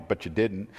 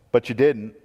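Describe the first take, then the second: First: Softer, lower punchline; hushed repeat. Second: Said in the usual way. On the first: Acted. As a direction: drop the voice for the accusation. Repeated line, second take hushed.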